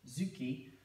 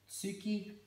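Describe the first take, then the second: First: The word begins with a z sound. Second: The word begins with a ts sound. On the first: The word is part of a compound. "changes to a Zu sound" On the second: The word stands on its own. "the Tsu sound"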